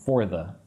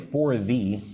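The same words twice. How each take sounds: First: The two words run together quickly as one. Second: The two words are said slowly and separately. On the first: "when I speak quickly, it's more like for the" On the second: "You could say for the"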